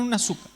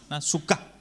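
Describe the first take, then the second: First: Suká wrongly stressed on the first syllable, SU-ka; misplaced stress. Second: Suká stressed on the last syllable, su-KA; stress on final A. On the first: Showing congregants what it is not, first-syllable stress. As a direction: hit the su of suká, letting ka drop. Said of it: "pero no es una suká". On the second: Correcting the word for congregants, final-A stress. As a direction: land firmly on the final A of suká. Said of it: "Con acento en la A al final". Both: Shown as a demonstration.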